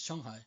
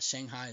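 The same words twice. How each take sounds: First: Shanghai is said with a Chinese pronunciation. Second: Shanghai is said with an American pronunciation. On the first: The speaker calls it right. "it's Shanghai" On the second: The speaker calls it wrong. "not Shanghai"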